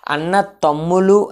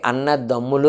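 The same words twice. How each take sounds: First: "అన్న తమ్ములు" with unvoiced t opening తమ్ములు; hard T pronunciation. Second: "అన్న దమ్ములు" with t softened to d; softened D pronunciation. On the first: Teacher showing the awkward form, "అన్న తమ్ములు" with hard t. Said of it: "అని పలకడం ఇబ్బంది కాబట్టి". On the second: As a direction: say "అన్న దమ్ములు" with a voiced dental d. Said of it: "అని పలుకుతాం". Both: Shown as a demonstration.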